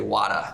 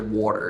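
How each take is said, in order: First: The word is said in a Boston accent. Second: The word is said in a New York accent. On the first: "I'm from Boston, so I hear I, I say wada" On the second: "New Yorkers say water. It's you, you lower the A"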